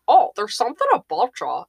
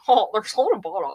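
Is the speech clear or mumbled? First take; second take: clear; mumbled. First: The words are spoken clearly in a normal voice. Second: The words are mumbled in a slurred, laid-back voice. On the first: "instead of saying" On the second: "it got even more muddled"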